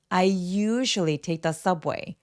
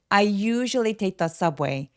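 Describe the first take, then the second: The two takes are said the same way.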